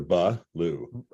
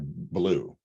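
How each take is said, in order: First: A short vowel separates the b from the l. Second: The b and l run together without a vowel. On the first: "Like there's always a ba lu" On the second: "It's like blue"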